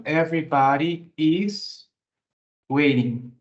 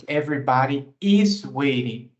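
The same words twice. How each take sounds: First: Everybody IS waiting, "is" drawn out with a rise; stress on is. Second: Everybody IS waiting, "is" hit with a falling tune; stress on is. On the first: Teacher to student, stressing "is" in Everybody is waiting. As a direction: lean on "is" slowly, then drop on waiting. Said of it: "Então, todo mundo está te esperando". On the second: Teacher to class, stressing "is" in Everybody is waiting. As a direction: land firmly on "is". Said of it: "percebam que everybody é um singular". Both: Shown as a demonstration.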